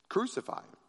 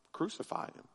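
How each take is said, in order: First: "Crucify him" voiced and higher, a mild cry; crowd crying out. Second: Breathy whispered Crucify him, no voice; hushed crowd cry. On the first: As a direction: lift "Crucify him" into a restrained shout. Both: A narrator's reading. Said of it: "And in a loud voice, the crowd cried out".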